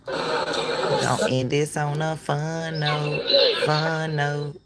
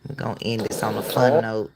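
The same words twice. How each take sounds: First: Slow, stretched-out and soft; drawn-out repeat. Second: Said in the usual way. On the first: Real, not acted. Host signing off on a fun note, drawn out. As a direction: draw the words out slowly and softly.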